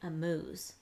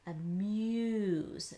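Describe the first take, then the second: First: The vowel sounds like 'oo', with no y glide. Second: The vowel sounds like 'you', with a y glide. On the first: The speaker calls it wrong. "If we said oo like in June, it would sound like a moose" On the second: The speaker calls it right. "It's making a U sound in this word"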